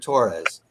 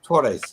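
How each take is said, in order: First: The name is said with an English pronunciation. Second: The name is said with a Spanish pronunciation. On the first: "I'll say it with an English pronunciation to make it clear" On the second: "my Spanish is not perfect. I'm trying to pronounce it correctly"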